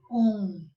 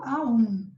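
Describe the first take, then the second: First: The vowels blend into one o sound. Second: The a and u sound separately. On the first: The speaker calls it right. "Quando a gente junta tudo" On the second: The speaker calls it wrong. "mas não é correto"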